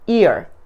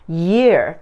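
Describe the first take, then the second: First: The word starts directly with a vowel sound. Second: The word starts with a y glide sound. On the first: The speaker calls it wrong. "ear 하시면은 ear 되겠죠" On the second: The speaker calls it right. "y로 시작하기 때문에 ... year 이라고 발음해 주시면 좋겠습니다"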